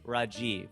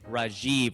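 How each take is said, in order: First: All syllables are even, with no stress. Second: One syllable carries strong stress. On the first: This is how it is said in India. The speaker calls it right. "but there it's Rajiv. It's just flat" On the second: This is the American way of saying it. The speaker calls it wrong. "here you say Rajiv"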